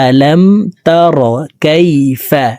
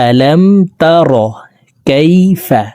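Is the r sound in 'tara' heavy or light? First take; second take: heavy; heavy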